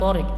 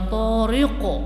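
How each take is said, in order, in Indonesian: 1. Konsonan akhir berakhir datar, tanpa pantulan. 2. Konsonan akhir berakhir dengan pantulan bergema.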